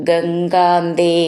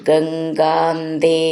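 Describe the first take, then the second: No difference in how they are said.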